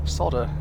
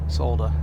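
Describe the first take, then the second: Both takes have the same delivery.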